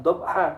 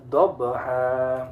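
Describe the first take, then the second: First: DHABHA as 'dhob-ha', B stopped dead; wrong, no bounce. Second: DHABHA slowly as 'dhob-be-haa', B echoed; bouncing qalqalah. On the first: Teacher shows mistake to avoid, unbounced B. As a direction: go from B straight to H in DHABHA. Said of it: "Bukan dhabha". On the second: Teacher gives corrected reading, bouncing B. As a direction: bounce the B in DHABHA, hold the ending. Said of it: "tapi dhabha". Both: Shown as a demonstration.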